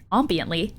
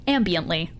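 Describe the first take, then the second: First: Ambiently? tried out with a rising, unsure tune; questioning pronunciation. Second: Ambiently. said firmly with a falling tune; settled pronunciation. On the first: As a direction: test the word Ambiently? as a question. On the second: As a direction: land Ambiently. as a statement. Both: Shown as a demonstration.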